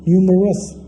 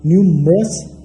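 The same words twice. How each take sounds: First: न्यूमरस in three syllables nyu-mə-rəs; न्यूमरस pronounced properly in three parts; correct pronunciation. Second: न्यूमरस squeezed into two syllables as nyum-ras; न्यूमरस mispronounced as nyumras; wrong pronunciation. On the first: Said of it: "इसकी correct pronunciation होगी". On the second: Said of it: "इसकी गलत pronunciation होगी". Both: Shown as a demonstration.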